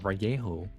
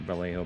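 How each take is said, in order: First: The double L is said as a Y sound. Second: The double L is said as an L sound. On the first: The speaker calls it right. "or Vallejo, because it's actually correct" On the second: The speaker calls it wrong. "everyone mispronounces it Vallejo because they see the, the L's"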